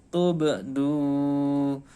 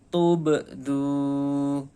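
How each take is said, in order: No difference in how they are said.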